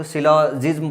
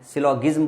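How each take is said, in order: First: सिलोजिज्म with a j sound in the middle; सिलोजिज्म pronounced "silo-jism"; soft-g pronunciation. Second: सिलोगिज्म with a hard g in the middle; सिलोगिज्म pronounced "silo-gism"; hard-g pronunciation. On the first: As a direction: say सिलोजिज्म, the g softened to "j" as in jam. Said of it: "कुछ लोग सिलोजिज्म बोलते हैं". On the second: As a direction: say सिलोगिज्म, the g as in give. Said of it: "सिलोगिज्म बोलते हैं कुछ लोग". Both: Shown as a demonstration.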